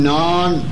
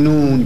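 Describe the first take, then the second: First: The vowel is an open 'aa' sound. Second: The vowel is a rounded 'oo' sound. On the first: "ما میگیم نان" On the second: "کجش میکنیم"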